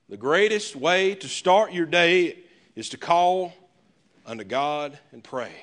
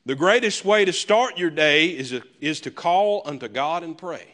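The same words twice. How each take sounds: First: Slower, every word weighed on "start"; slow emphatic repeat. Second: Said in the usual way. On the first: Shown as a demonstration. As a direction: repeat it slowly so it sinks in. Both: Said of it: "I wrote this down".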